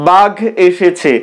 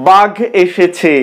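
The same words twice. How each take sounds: No difference in how they are said.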